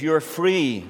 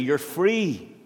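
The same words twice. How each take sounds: First: The word free is said plainly. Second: The word free is said with strong emphasis.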